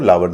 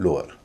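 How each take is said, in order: First: The first vowel sounds like 'ow' in cow. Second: The first vowel sounds like 'oh' in go. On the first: The speaker calls it wrong. "इसको लावर नहीं कहेंगे" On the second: The speaker calls it right. "इसलिए इसको कहेंगे लोअर"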